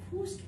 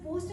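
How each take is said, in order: First: The vowel is an 'oo' sound. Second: The vowel is a plain 'o' sound.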